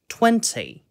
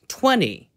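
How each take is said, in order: First: The middle T is pronounced clearly and crisply. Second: The middle T is softened and skipped over. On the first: "영국식으로 이 단어를 발음을 해 보면은" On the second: "제가 아까 미국식으로 발음을 했듯이"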